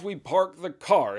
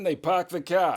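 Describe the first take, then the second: First: It is said in a Southern US accent. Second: It is said in a Boston accent.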